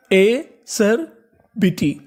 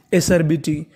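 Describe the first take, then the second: First: "एसरबिटी" very slow, in separate pieces; teacher breaking "एसरबिटी" into slow, spaced chunks; syllable by syllable. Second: Said in the usual way. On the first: Shown as a demonstration. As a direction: sound out "एसरबिटी" with long gaps between the parts. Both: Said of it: "तो पूरी meaning क्या बनी हमारी".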